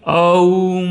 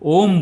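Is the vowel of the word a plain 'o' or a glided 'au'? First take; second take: glided au; plain o. First: The vowel glides from 'a' toward 'u'. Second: The vowel is a single, plain 'o'. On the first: The speaker calls it wrong. "यह गलत उच्चारण है।" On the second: The speaker calls it right. "Sanskrit में अ और उ मिलकर ओ हो जाता है"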